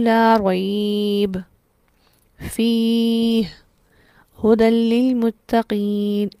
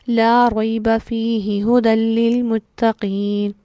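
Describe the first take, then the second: First: It pauses after raib and after fih. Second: It is read straight through without any pause. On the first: "ये भी दुरुस्त नहीं है" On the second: "ना हम यहाँ रुके और ना हम यहाँ रुके"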